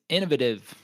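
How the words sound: It is said with a British pronunciation. "depending on if you're British"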